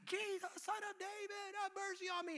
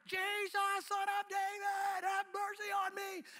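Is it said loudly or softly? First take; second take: softly; loudly. First: It is called out more softly. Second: It is called out much louder.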